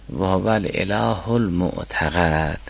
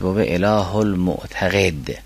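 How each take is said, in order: First: المعتقد with a short "a" after the qaf, الاله with the article; fatha on qaf. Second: المعتقد with a short "e" after the qaf, اله without the article; kasra on qaf. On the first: Teacher reads out the second manuscript variant, المعتقد ending "-qad". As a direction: read المعتقد slowly as "mu'taqad", qaf with fatha. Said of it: "به فتح قاف است". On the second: Teacher reads out the first manuscript variant, المعتقد ending "-qed". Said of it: "که به کسر قاف". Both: Shown as a demonstration.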